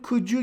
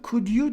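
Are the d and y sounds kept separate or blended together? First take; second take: blended; separate. First: The d and y blend into a j sound. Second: The d and y sounds are kept separate. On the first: "you olduğu zaman could you gibi geliyor kulağa böyle" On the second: "aslında could you diye söyleniyor"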